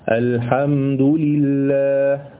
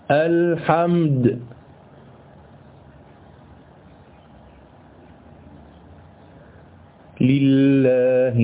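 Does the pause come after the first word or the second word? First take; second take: second word; first word. First: It pauses only after the second word. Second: It pauses right after the first word. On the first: The stop falls where the meaning is complete. The speaker calls it right. "يسمى وقفا حسنا، يعني أقف هكذا" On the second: The stop breaks off before the meaning is complete. The speaker calls it wrong. "تعالوا بقى نشوف الوقف القبيح"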